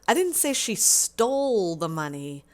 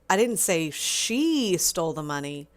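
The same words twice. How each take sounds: First: The stress is on the word stole. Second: The stress is on the word she.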